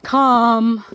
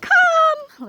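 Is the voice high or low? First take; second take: low; high. First: It is said in a low voice. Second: It is said in a high voice.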